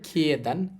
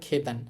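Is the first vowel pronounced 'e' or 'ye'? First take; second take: ye; e. First: The first syllable has the full 'ye' glide. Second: The first syllable is a plain 'e' sound. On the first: "এটাকে সাধারণভাবে বললে" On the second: "কিন্তু সহজে বলবো আমরা"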